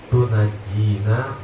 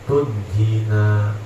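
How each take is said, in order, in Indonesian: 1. Kata ini diucapkan dengan empat suku kata, tu-na-ji-na. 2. Kata ini diucapkan dengan tiga suku kata, tun-ji-na. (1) "boleh dibaca tunajina biha" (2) "boleh dibaca tunjina biha"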